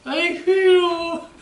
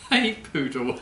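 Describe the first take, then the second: First: Much higher, slow, squeaky puppet voice; squeaky puppet punchline. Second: Repeats the punchline through a laugh. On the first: Acted. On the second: Real, not acted. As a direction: chuckle the answer back.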